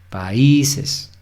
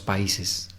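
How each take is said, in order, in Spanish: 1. El acento cae en la i; la a y la i se separan. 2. El acento cae en la a; la a y la i se funden. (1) "la sílaba tónica va a ser la I" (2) "Si no diríamos"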